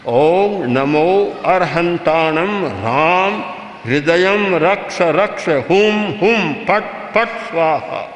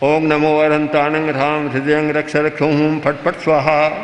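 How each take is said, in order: First: It is said with strong force and energy. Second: It is said slackly, with little energy. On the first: A circle of power is formed. The speaker calls it right. "तो एक शक्ति का बलय बनेगा" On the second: No circle of power is formed. The speaker calls it wrong. "वही ढीला ढाला किया"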